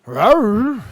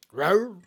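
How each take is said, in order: First: Big, louder playful roar; hammed-up lion roar; louder mock roar. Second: Small playful roar; gentle pretend roar; mock roar. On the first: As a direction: roar it out to rile the dog. Bigger playful roar at puppies.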